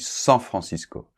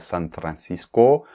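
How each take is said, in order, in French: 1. Le nom est prononcé à la française. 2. Le nom est prononcé à l'anglaise. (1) "En français, on dit San Francisco" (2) "on ne prononce pas San Francisco"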